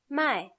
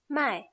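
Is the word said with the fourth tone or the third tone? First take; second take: fourth; fourth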